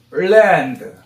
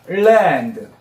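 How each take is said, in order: First: 랜드 said flat with a plain Korean r, the wrong way; teacher shows the wrong plain 랜드 first. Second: 랜드 said like 을랜드 with a clear L at the start; L-sound 랜드. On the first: Teacher to moms, demonstrating the wrong plain 랜드. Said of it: "그냥 랜드 이러면 안 돼요". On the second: Teacher to moms, modelling 랜드 as 을랜드. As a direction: lead into 랜드 with a light 을 so the L rings. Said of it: "거의 을랜드 이런 느낌을 해야 돼요". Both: Shown as a demonstration.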